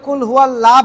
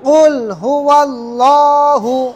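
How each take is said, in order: First: The phrase ends on 'lah' with no vowel. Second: The phrase ends with a final 'hu' sound. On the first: The speaker calls it wrong. "এই কেউ কুল হুয়াল্লাহ বলবেন না" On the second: The speaker calls it right. "ল হবে"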